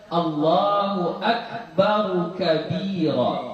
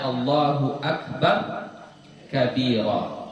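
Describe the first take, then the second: First: Akbar ends with an added u vowel. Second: Akbar ends on r with no vowel. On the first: The speaker calls it right. "baris dhammah ... Itu cara bacaannya paling benar" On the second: The speaker calls it wrong. "ra-nya di baris sukun. Ya, dari segi bacaan salah"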